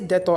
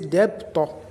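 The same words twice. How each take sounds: First: The B sound is silent in the word. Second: The B sound is clearly pronounced in the word. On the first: The speaker calls it right. "I say debtor ... I do not pronounce B" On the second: The speaker calls it wrong. "I do not say debtor"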